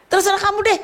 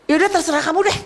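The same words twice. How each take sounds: First: Much higher, peak exasperation on deh; hammed-up fed-up parent; more exasperated parent. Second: Higher, fed-up giving up; hammed-up fed-up parent; exasperated parent. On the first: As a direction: push the exasperation to the top. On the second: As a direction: throw up your hands at the child. Fed-up parent to whining child.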